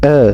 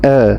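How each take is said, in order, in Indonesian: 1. Vokalnya dibuka setengah dan ditahan. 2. Vokalnya dibuka setengah dan ditahan.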